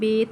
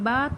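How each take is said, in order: First: It is said with an Urdu pronunciation. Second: It is said with an Arabic pronunciation. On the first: The speaker calls it wrong. "उर्दू तलफ़्फ़ुज़ से परहेज़ करें, यानी बे" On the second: The speaker calls it right. "अरबी लहजे में अदा करें"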